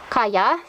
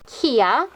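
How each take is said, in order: First: The name is said as 'Kaya'. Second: The name is said as 'Kia'. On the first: It is the proper way of saying the name. The speaker calls it right. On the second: It is a habitual childhood way of saying the name. The speaker calls it wrong.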